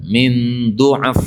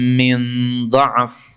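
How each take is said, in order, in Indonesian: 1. Vokal pertama dari kata itu adalah 'u'. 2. Vokal pertama dari kata itu adalah 'a'. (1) "Yang kedua dotnya di dhammah" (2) "Yang pertama dotnya di fathah"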